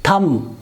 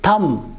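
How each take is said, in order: Both takes have the same delivery.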